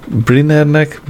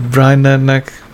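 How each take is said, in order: First: "Brynnernek" said with a short i, as brin-ner-nek; "Brynnernek" with i, before fixing it; Brynner misread. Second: "Brynnernek" said the English way, as brine-ner-nek; "Brynnernek" fixed with an ai sound; Brynner corrected. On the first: Narrator stumbling over the name, says "Brynnernek" as brin-ner-nek. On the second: Narrator correcting himself, "Brynnernek" as brine-ner-nek. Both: Shown as a demonstration.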